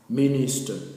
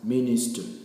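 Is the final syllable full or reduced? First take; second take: full; reduced. First: The final syllable has a full ta vowel. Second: The final syllable is reduced and weak. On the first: The speaker calls it wrong. "We will not pronounce as minister" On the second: The speaker calls it right. "but rather as minister"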